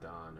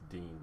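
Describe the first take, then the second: First: The vowel sounds like 'ah'. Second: The vowel sounds like 'ee'. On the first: This is how it is said in Belgium. The speaker calls it right. "I think it's pronounced Don" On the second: This is how it would be said in America. The speaker calls it wrong. "if it was in America, it would be pronounced Dean"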